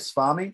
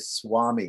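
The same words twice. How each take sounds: First: The second sound is a V sound. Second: The second sound is close to a W. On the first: "Some people say swami" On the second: "a little bit more like closer to a W"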